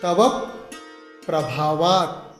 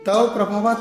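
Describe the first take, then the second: First: The syllable before 'pra' is stressed. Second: The syllable before 'pra' is unstressed. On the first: The speaker calls it right. "संयुक्त अक्षर के पहले ह्रस्व अक्षर आया है, स्वराघात हुआ है" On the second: The speaker calls it wrong. "नहीं"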